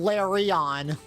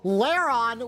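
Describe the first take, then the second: First: The name has three syllables, like 'la-ri-on'. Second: The name has two syllables, like 'lair-on'.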